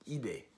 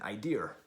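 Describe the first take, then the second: First: It is said with a French accent. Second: It is said with a Boston accent.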